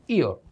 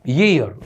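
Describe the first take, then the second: First: ईयर said "ee-a", vowel first; ear without glide. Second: ईयर said "yee-ar", y sound first; year with y glide. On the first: Teacher contrasting ear with year, ईयर with no y. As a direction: begin ईयर on long "ee", no "y". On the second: Teacher contrasting year with ear, ईयर with initial y. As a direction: lead into ईयर with a clear "y". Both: Shown as a demonstration. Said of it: "इसको बोल रहे हैं हम".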